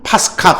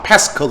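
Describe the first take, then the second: First: It is pronounced with a Greek-style final ah. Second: It is pronounced with an English-style vowel ending. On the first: "그냥 그리스 발음으로는" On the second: "그 영어식 발음으로는"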